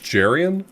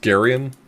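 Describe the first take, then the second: First: The name begins with a J sound. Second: The name begins with a hard G sound. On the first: "so that would be J" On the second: "does hard G mean"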